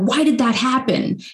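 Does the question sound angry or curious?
angry. It sounds angry and blaming.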